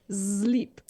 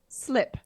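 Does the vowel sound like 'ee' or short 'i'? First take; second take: ee; short i. First: The vowel is a long 'ee' sound. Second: The vowel is a short 'i' sound. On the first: "they pronounce it sleep" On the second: "it's written slip"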